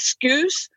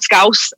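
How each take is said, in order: First: The vowel sounds like the one in excuse. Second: The vowel sounds like the one in house. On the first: The speaker calls it wrong. "a lot of Americans think it's Scouse" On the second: The speaker calls it right. "it's called Scouse"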